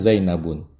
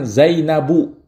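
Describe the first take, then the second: First: The word ends with an added n sound. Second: The word ends in a vowel without n. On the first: The speaker calls it wrong. "nggak boleh kita katakan Zainabun" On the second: The speaker calls it right. "Maka kita katakan Zainabu"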